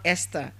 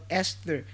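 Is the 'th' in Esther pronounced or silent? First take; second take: pronounced; silent. First: The th sound is pronounced. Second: The th sound is silent. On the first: The speaker calls it wrong. "and not Esther" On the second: The speaker calls it right. "the T H there is giving you the silent sound"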